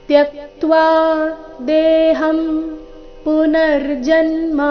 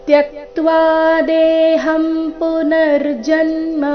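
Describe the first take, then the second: No difference in how they are said.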